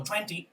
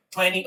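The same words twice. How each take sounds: First: "twenty" said as "twen-tee"; twenty with both Ts. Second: "Twenty" said as "tweny"; twenty without second T. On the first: Teacher reminding students of number twenty, both Ts sounded in "twenty". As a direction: pronounce the second T of "twenty" clearly. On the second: Teacher reminding students of number twenty, second T dropped in "Twenty". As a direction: drop the T after the N in "Twenty". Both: Shown as a demonstration. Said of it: "Twenty o twenty".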